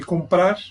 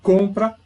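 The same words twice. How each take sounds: First: "comprar" with the stress on PRAR; stress on last syllable. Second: "Compra" with the stress on COM; stress on first syllable. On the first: Teacher contrasting it with compra, final-syllable stress on "comprar". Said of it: "Aí a sílaba tônica, então, está no final". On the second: Teacher showing where the accent sits, first-syllable stress on "Compra". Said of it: "o acento tá aqui". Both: Shown as a demonstration.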